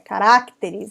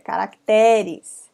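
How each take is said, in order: First: The stress falls before the penultimate syllable. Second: The stress falls on the penultimate syllable. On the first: The speaker calls it wrong. "Não é caracteres" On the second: The speaker calls it right. "penúltima sílaba é mais forte"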